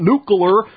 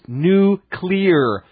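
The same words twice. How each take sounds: First: The word is said as nu-cu-lar. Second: The word is said as nu-clee-er. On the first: The speaker calls it wrong. "It's not nuclear" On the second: The speaker calls it right. "but it's nuclear. Get it right"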